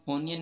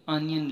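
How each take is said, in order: First: "ओनियन" opening on a long O; wrong pronunciation. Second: "अनियन" opening on a short "uh"; correct pronunciation. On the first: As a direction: say "ओनियन" with an "oh" start. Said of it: "ओनियन नहीं बल्कि". ("ओनियन", शुरू में "ओ" की आवाज़) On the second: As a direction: say "अनियन" with an "uh" start. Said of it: "अनियन लफ्ज़ है". ("अनियन", शुरू में छोटा "अ") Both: Shown as a demonstration.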